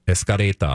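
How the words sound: It is said with a Japanese-style pronunciation.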